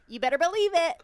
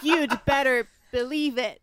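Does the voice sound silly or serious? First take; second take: silly; serious. First: It is said in a silly, cartoonish voice. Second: It is said in a deep, serious voice.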